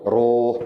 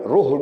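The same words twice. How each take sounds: First: The vowel is said long. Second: The vowel is said short. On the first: The speaker calls it right. "Ruh panjang sikit" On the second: The speaker calls it wrong. "jangan ruh begitu"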